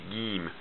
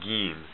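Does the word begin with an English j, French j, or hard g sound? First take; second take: hard g; hard g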